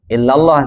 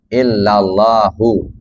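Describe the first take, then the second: First: The word stops without any final vowel. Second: The word ends with an added final 'u' vowel. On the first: "kalau diwakafkan illallah saja" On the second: "Menyebutkan barisnya"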